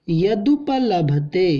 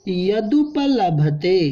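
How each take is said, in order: Both takes have the same delivery.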